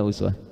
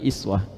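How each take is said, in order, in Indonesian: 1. Kata ini diawali vokal u. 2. Kata ini diawali vokal i. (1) "Dibacanya apa ini?" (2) "mereka bacanya iswah"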